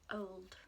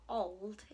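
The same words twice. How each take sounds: First: The vowel is long, as in 'go'. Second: The vowel is short, as in 'hot'. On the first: The speaker calls it right. "It's old" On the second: The speaker calls it wrong. "It's not old, is it?"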